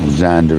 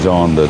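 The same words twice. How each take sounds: First: It is said with an English pronunciation. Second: It is said with a Dutch pronunciation. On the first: "as we call them here" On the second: "you call them Zander, don't you, over in Holland"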